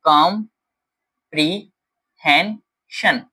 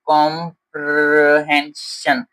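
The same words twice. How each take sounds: First: कॉम्प्रिहेंशन said slowly and cleanly, every syllable right; a teacher's careful कॉम्प्रिहेंशन; correct model pronunciation. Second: Put-on कॉम्प्रिहेंशन stumbled over, slowly, like a child reading it wrong; a halting wrong कॉम्प्रिहेंशन; child's misreading. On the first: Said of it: "ये word होता है". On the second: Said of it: "जैसे वो for example बोल रहा है". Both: Shown as a demonstration.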